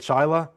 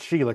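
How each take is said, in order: First: The first vowel sounds like 'shy'. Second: The first vowel sounds like 'she'. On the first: The speaker calls it right. "or is it Shyla? Yeah, okay" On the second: The speaker calls it wrong. "did I pronounce that right? It's Sheila, correct?"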